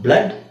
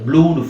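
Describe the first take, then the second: First: The vowel sounds like 'uh'. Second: The vowel sounds like 'oo'. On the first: The speaker calls it right. "ಇವೆರಡನ್ನು ನಾವು ಅ ಅಂತ ಹೇಳಬೇಕು" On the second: The speaker calls it wrong. "ಅಂತ ಹೇಳಂಗಿಲ್ಲ"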